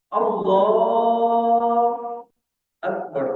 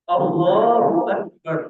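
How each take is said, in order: First: There is a pause between the two words. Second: The two words are joined without a pause.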